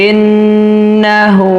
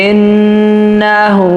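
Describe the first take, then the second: No difference in how they are said.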